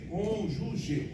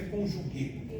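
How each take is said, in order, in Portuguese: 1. A palavra termina com um som parecido com 'zh', suave. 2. A palavra termina com um som de 'g' forte. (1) "Pronúncia é essa, cônjuge" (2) "Não é conjugue"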